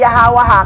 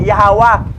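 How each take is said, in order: First: The final vowel sound is pronounced. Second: The final vowel sound is silent. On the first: The speaker calls it wrong. "Hindi na siya basahin Yahawa ha" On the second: The speaker calls it right. "silent last vowel sound"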